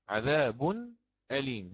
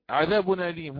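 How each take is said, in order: First: The two words are kept apart at the glottal stop. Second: The two words run together as one word. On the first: The speaker calls it right. "بل هي عذاب أليم، عذاب أليم هكذا" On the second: The speaker calls it wrong. "لا تقول عذاب أليم هكذا مباشرة ككلمة واحدة"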